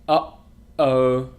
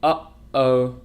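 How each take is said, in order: First: The catch between syllables is long and exaggerated. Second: The catch between syllables is short and natural.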